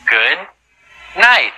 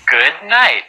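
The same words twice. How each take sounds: First: It is said slowly and carefully. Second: It is said fast.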